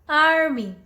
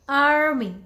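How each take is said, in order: First: It is said in an American accent, r sounded. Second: The same.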